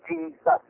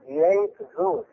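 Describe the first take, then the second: First: The name is said as one word. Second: The name is said as two separate parts. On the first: This is the modern form of the name. "in modern terms, we would say Jesus" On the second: This is the original form of the name. "that's how they pronounce the name of Jesus in its original form"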